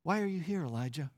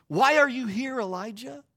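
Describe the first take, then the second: First: Softer, hushed voice of God; barely above a breath, gently; still small voice. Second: Booming God voice. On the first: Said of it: "in that still small voice". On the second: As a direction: call out to him with a big voice. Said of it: "and this time in that still small voice". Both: Retold or imitated.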